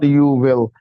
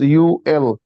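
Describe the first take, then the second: First: The w sound is clearly pronounced in 'will'. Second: The w sound is dropped, giving 'you ill'. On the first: The speaker calls it wrong. "It's not you will" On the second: The speaker calls it right. "this is you ill"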